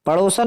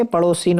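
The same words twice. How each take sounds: First: पड़ोसन with short a, ending 'san'; wrong pronunciation. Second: पड़ोसिन with i, ending 'sin'; corrected pronunciation. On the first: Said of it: "नहीं होता". (पड़ोसन में 'सन' बोलें) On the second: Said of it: "सिन, ध्यान रखना". (पड़ोसिन में 'सिन' साफ़ बोलें) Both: Shown as a demonstration.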